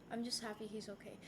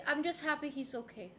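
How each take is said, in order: First: "I'm just happy he's okay" said much softer, almost to herself; quiet and sincere. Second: Said in the usual way. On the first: Real, not acted. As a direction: let it drop to a soft, sincere murmur. Repeats relief about her dad.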